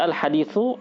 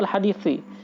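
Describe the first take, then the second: First: The word ends with the vowel u. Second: The word ends with the vowel i. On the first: "bisa dibaca al-haditsu. Bisa dibaca rafa" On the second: "boleh juga dibaca kasroh"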